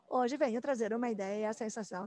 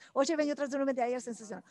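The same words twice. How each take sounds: First: The sentence is spoken at a moderate speed. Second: The sentence is spoken quickly. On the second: "E assim, cada vez mais rápido"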